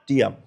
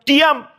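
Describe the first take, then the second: First: Said in the usual way. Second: "Diam" diucapkan tinggi dan tegas seperti perintah; perintah Tuhan. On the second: Retold or imitated. ("Diam" sebagai perintah tegas, nada tinggi) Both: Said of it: "Kalau Tuhan bilang".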